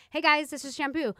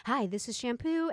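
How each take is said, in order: First: Casual chatty video greeting; natural, friendly. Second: Slow, stiff presenter voice; robotic, too professional. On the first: Imitating her later videos to viewers, natural and friendly. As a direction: greet them like a girlfriend, unforced. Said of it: "pretending like I was talking to a friend". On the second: Imitating her first YouTube videos, stiff and robotic. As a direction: say it woodenly, like an over-rehearsed video intro. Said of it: "very robotic and non-genuine and really weird". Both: Retold or imitated.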